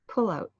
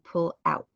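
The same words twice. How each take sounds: First: The stress falls on the first word. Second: The stress falls on the second word. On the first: It sounds like a noun, not an action. The speaker calls it wrong. "If not, the actions will sound like" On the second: It is an urgent action verb. The speaker calls it right. "emphasize the second word in the pairs"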